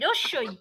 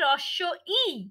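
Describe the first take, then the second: First: The two parts are run together as one. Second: The two parts are said clearly separated. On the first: The speaker calls it wrong. "রস্যই বললে কিন্তু শব্দ ভুল বলা হবে।" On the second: The speaker calls it right. "ওটা হবে রস্য ই।"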